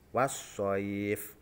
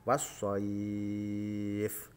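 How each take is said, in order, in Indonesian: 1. Vokal panjang ditahan selama dua ketukan. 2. Vokal panjang ditahan selama enam ketukan. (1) "Sekarang yang coba yang satu alif" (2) "panjang yang ketiga yaitu tiga alif atau enam harokat"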